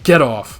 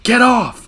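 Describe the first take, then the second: First: Said in the usual way. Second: Much higher and louder, a sharp yell; mother yelling at her son to leave; retold yell. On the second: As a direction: shout it, pushing him away. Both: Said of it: "she yells".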